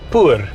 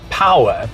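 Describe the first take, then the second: First: It is said with one syllable, like poor. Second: It is said with two syllables, like power. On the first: "we would pronounce it poor" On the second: "which G W M says is pronounced power"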